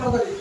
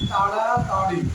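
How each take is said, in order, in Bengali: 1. শব্দটা হালকাভাবে, ওপর ওপর করে বলা হয়েছে। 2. শব্দটা গভীরভাবে আর জোর দিয়ে বলা হয়েছে। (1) "ভাষা ভাষা করে তাড়াতাড়ি এইরকম বললে" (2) "এইভাবে গভীরভাবে উচ্চারণ করি"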